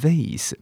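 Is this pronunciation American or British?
American. It is said with an American accent. "美国人是念vase"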